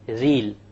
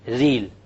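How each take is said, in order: No difference in how they are said.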